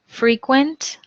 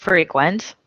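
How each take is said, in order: First: Frequent stressed FRE-quent, higher; first-syllable stress on frequent; adjective stress. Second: Frequent whispered, stressed fre-QUENT; whispered take. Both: Shown as a demonstration. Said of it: "homographs list".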